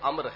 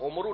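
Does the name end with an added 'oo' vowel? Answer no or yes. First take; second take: no; yes. First: The name ends without any added vowel. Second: The name ends with an added 'oo' vowel. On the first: The speaker calls it right. "اس کا تلفظ عمرو نہیں بلکہ عمر ہے" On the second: The speaker calls it wrong. "جسے عموماً لوگ عمرو پڑھ لیتے ہیں"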